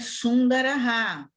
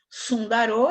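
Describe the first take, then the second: First: The word ends in a breathy aha sound. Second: The word ends in a plain o sound.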